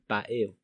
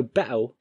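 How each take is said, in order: First: BATTLE with the T fully sounded; battle, every consonant spelled out; pronounced T. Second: BATTLE with the T swallowed into a catch; battle with a hiccup in place of the T; glottal stop. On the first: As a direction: say "battle" as "bat-il". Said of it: "rare occasion to find someone saying". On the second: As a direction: say "battle" as "ba'ul". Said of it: "short pause or hiccup in its place". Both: Shown as a demonstration.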